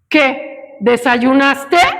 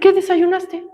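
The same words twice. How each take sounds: First: It is said in an angry tone. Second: It is said in a neutral tone.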